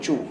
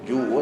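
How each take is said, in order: First: The syllable begins with a voiceless ch sound. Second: The syllable begins with a voiced j sound. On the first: The speaker calls it wrong. "bukan cu" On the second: The speaker calls it right. "Kita nak J"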